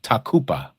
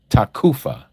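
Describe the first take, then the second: First: The middle consonant is a P sound. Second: The middle consonant is an F sound. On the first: The speaker calls it right. "but it's actually a P sound" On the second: The speaker calls it wrong. "Some people pronounce it takufa with the F, like in Frank"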